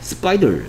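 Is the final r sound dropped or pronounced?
pronounced. American accent with the final r sound pronounced. "미국 사람들은 얼 소리를 잘 내주고 있죠"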